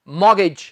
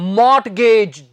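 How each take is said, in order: First: No t sound is pronounced in the middle. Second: A t sound is pronounced in the middle. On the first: The speaker calls it right. "इसका सही उच्चारण है मॉगेज। इसमें हम टी नहीं बोलते" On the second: The speaker calls it wrong. "बहुत से लोग इसे बोल देते हैं मॉर्टगेज, जी ये मॉर्टगेज नहीं होता"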